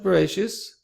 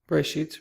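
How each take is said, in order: First: It is said with a traditional Ashkenazi pronunciation. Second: It is said with the modern Hebrew pronunciation. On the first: The speaker calls it wrong. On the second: The speaker calls it right. "Bereshit rather"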